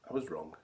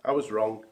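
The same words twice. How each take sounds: First: Refrain sunk low and soft, much quieter; hushed admission. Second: Said in the usual way. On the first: Acted. [name] admits to listeners, low and hushed. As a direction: let the admission fall away, lower and softer.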